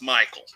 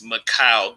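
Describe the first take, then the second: First: The name is said in the Michael form. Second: The name is said in the Mikhail form. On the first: The speaker calls it right. "But his name is Michael Garrett. It's Michael" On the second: The speaker calls it wrong. "I pronounced the man's name as Mikhail Garrett"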